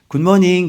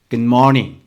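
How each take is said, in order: First: It is said with a Korean accent. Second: It is said with a native English accent. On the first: The speaker calls it wrong. "우리는 굿모닝 그러잖아요. 근데 그거는 발음이 원어민 발음이 아니거든요" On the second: The speaker calls it right. "이 속에서부터 good, good morning 좀 다르지?"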